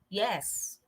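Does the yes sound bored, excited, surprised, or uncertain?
bored. It sounds bored and uninterested.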